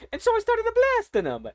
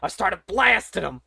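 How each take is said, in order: First: The line redone way up high in a cartoon voice. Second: Said in the usual way. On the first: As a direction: replay it as the gleeful little hero. Same line redone in character voice.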